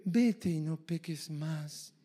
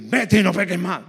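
First: Very soft, slow, drawn-out delivery; gentle exhortation. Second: Firm, quick command at full voice; forceful exhortation. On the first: Preacher showing one way to exhort a sinner, softly. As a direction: say it hushed and slowly, as gentle counsel. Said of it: "Tú, tú lo puedes decir". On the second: Preacher showing another way to exhort a sinner, forcefully. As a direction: say it hard and forcefully, no softness. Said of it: "O lo puedes decir". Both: Shown as a demonstration.

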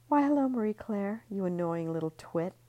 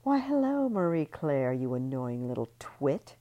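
First: Higher, louder fake-sweet hello; sugar-coat the insult; sweet mock greeting. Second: Sickly sweet taunt. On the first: Ellie tipsily taunting Marie Claire, fake sweet. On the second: Ellie drunkenly mocking Marie Claire, sing-song. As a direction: start syrupy then sneer the insult. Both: A narrator's reading. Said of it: "I'm gonna say all that again".

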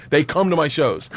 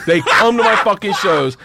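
First: Said in the usual way. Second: Slow, louder, higher, stressing "come" and "fucking shows"; emphatic. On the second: Real, not acted. Comedian insisting robbed classmates attend, emphatic. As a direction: punch out "fucking shows" in disbelief.

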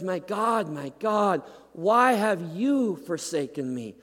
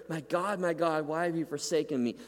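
First: Raised, aching cry to God; anguished cry. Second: Perplexed. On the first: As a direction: cry the psalm out from the cross. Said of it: "where he says". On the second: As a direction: ask it in bewilderment, not anger. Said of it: "Jesus cries out perplexed here". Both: Acted.

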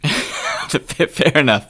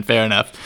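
First: Fair enough through real laughter; slow, laughing it out. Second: Said in the usual way. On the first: Real, not acted. Laughs at cohost's spin.

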